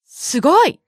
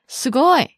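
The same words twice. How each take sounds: First: It sounds excited and impressed. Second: It sounds flat and unimpressed. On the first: The listener is genuinely amazed. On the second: The listener is not really amazed.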